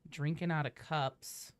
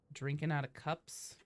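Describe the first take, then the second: No difference in how they are said.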